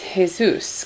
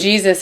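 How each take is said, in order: First: It starts with an H-like sound, not J. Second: It starts with an English J sound. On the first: This is how it is said in Spanish. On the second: This is how English speakers say it.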